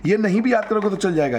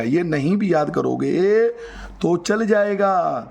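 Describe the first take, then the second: First: Said in the usual way. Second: Very slow, with long stretched phrase endings; drawn-out repetition. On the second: Shown as a demonstration. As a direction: stretch it out teasingly for the students. Repeats it drawn out for emphasis.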